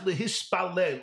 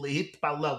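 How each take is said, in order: First: The middle consonant is an s sound. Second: The middle consonant is a t sound.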